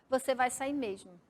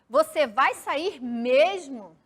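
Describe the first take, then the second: First: It is read with a flat statement intonation. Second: It has question intonation, stressing the last word. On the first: It affirms that the listener is leaving. "se eu ler como se fosse um ponto final, eu ia ler como uma frase afirmativa, declarativa" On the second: It asks whether the listener is really leaving. "Aquela pressão mais forte na última palavra, dando aquela entonação de pergunta"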